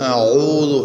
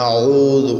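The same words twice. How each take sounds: The two takes are said the same way.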